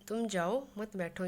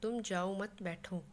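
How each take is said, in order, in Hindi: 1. विराम 'jao' शब्द के ठीक बाद आता है। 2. विराम 'mat' शब्द के ठीक बाद आता है। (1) "यानी कि किसी को बैठने के लिए मना किया गया" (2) "यानी तुम्हें जाना नहीं है, यहीं बैठे रहना है"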